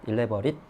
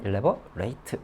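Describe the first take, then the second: First: The final syllable is a reduced 'it' sound. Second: The final syllable is a full 'ate' sound. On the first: It describes something as intricate. "형용사이면 ot, it, 그러니까 elaborate" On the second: It means to make something intricate. "동사가 되면 elaborate 이렇게 되는 것이죠"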